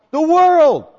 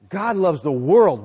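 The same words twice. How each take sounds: First: High, loud, appalled repeat of the world; shocked echo. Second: Said in the usual way. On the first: Retold or imitated. Nicodemus hearing God loves the world, stunned disbelief. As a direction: spit the world back in disbelief.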